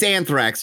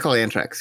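First: The middle consonant is a th sound. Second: The middle consonant is a plain t sound. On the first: This is the English pronunciation. "So it's Anthrax. Just take the H away" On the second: This is the Spanish pronunciation. "They call it Antrax"

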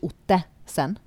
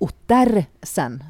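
First: No r sound is heard after the first vowel. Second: An r sound is heard after the first vowel. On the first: The speaker calls it wrong. "Ikke Ottesen" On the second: The speaker calls it right. "Du vet det er Ottersen, sant?"

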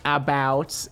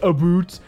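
First: The vowel is not raised, standard American. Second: The vowel is fully raised, strongly Canadian. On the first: This is the ordinary non-Canadian way. "but not about" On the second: This is the full Canadian way. "not all the way about"

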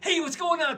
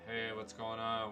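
First: The greeting is said with wild, manic energy. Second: The greeting is said with flat, low energy. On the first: The greeter seems overexcited and scary. "I'm not talking manic. ... Not that. That's scary" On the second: The greeter seems uninterested and uninviting. "How enticing is that? It's not"

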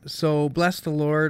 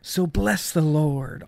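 First: It is read in a plain, undramatic way. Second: It is read with dramatic, theatrical flair.

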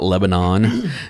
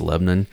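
First: It is said the usual outsider way. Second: It is said the local Tennessee way. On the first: The speaker calls it wrong. "It's not Lebanon" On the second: The speaker calls it right. "that's the correct pronunciation. It's Lebanon"

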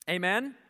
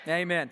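First: It is said as a rising question. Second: It is said as a falling answer.

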